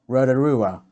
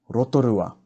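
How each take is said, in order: First: "Rotorua" with English R, like "rada-rua"; anglicised mispronunciation. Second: "Rotorua" with lightly tapped R and pure vowels; Māori pronunciation. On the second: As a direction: tap each R in "Rotorua", clear o sounds. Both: Shown as a demonstration. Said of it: "Not Rotorua".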